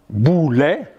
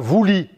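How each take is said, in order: First: The word begins with a B sound. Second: The word begins with a V sound. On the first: This is the ancient Greek pronunciation. "ça s'écrit comme en grec ancien" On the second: This is the modern Greek pronunciation. "Ils disent la voulie"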